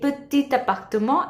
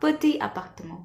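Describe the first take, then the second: First: The t of petit links into appartement. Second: The t of petit is not linked over. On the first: The speaker calls it right. "The French liaison comes into place and we say petit appartement" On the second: The speaker calls it wrong. "and not petit appartement"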